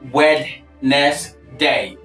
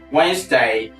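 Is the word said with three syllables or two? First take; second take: three; two. First: The word is said with three syllables. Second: The word is said with two syllables. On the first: The speaker calls it wrong. "Not Wednesday" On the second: The speaker calls it right. "We have two syllables in this word"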